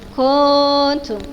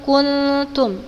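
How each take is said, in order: First: The first vowel is drawn out long. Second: The first vowel is kept short. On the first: The speaker calls it wrong. "tidak dibaca panjang ya" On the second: The speaker calls it right.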